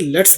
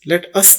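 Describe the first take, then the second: First: It is contracted into one short syllable. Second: It is said as two separate words. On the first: The speaker calls it right. "बल्कि लेट्स बोलेंगे इसको" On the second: The speaker calls it wrong. "लेट अस नहीं"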